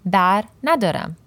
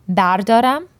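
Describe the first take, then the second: First: "bar nadaram" with the "na" syllable clearly in, falling at the end; with negating na. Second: "bardaram" said as three syllables, BAR-da-ram, higher, rising at the end. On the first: Teacher contrasting the negative form for learners, settled and falling. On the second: Teacher contrasting the positive form for learners, raised and rising. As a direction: stress "bardaram" rising up, no negation. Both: Shown as a demonstration.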